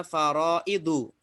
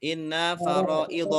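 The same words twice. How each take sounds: First: FARAIDU with final short U; rofa reading. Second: "Inna faraidha" with final short A; reading after inna. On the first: Teacher shows the rofa case, careful reading of faraidu ending in U. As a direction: end "faraidu" on -du. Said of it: "rofa bacanya faraidu". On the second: Teacher models the form after inna, careful reading of faraidha ending in A. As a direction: end "faraidha" on -dha instead of -du. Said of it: "Kalau ada inna bacanya?". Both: Shown as a demonstration.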